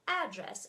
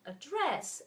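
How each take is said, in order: First: The stress is on the first syllable. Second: The stress is on the second syllable. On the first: It is a noun meaning a place. "Address has the accent in the beginning" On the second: It is a verb meaning an action. "Address is stressed at the end"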